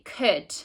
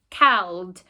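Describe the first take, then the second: First: The vowel sounds like the 'oo' in good. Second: The vowel sounds like the 'ow' in cow. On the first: The speaker calls it right. "we'd say could" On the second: The speaker calls it wrong. "we'd never say cowled"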